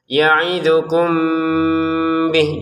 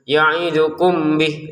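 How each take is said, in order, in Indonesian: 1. Huruf m disamarkan dengan dengung yang ditahan. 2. Huruf m dibaca jelas tanpa ditahan. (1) "tidak lagi dibaca jelas tapi dibaca dengan samar ... ada jeda dua harokat"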